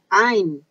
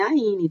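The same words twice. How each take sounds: First: "Ain" said slowly with one strong stressed syllable; careful slow teaching of "Ain" as a single stressed syllable; correct pronunciation. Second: "Aine" the mistaken version the speaker warns against; mock the common mispronunciation of "Aine"; wrong pronunciation. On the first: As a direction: stretch out "Ain" with the accent landing firmly. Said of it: "tem um acento aí, uma sílaba forte aí". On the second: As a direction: say "Aine" the wrong way, as people often do. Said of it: "jamais a chame de Aine". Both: Shown as a demonstration.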